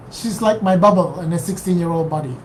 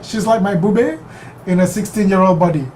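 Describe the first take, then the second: First: "bubble" said like the English word bubble, bʌbəl; "bubble" read plainly as bubble, not the Yiddish word; bubble mispronounced. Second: "bube" said bu-beh, two syllables, Yiddish grandma. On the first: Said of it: "What does that mean?". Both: Shown as a demonstration.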